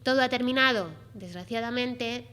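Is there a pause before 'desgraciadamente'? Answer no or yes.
yes. There is a pause before the last word. The speaker regrets that it ended. "Si hacemos la pausa es como me parece a mí que haya terminado"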